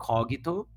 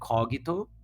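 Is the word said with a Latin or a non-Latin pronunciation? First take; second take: Latin; Latin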